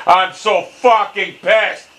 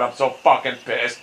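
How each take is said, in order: First: Higher, slow angry outburst; pissed off, building. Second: Low, seething frustration; real anger held down low; pissed off. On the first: Gamer repeating how pissed they are, angrier. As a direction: stretch each word out in real rage. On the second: Gamer swearing at a bad shot, pissed off. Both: Real, not acted.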